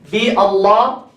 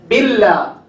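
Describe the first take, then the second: First: A glottal stop separates bi and Allah. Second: Bi runs straight into Allah without a stop. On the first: The speaker calls it wrong. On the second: The speaker calls it right.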